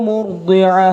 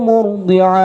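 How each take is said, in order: No difference in how they are said.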